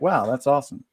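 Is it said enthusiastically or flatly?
flatly. It is said flatly, without enthusiasm.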